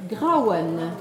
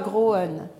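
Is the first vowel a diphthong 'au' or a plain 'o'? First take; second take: diphthong au; plain o. First: The first vowel is the diphthong 'au'. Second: The first vowel is a plain 'o' sound. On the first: The speaker calls it right. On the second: The speaker calls it wrong.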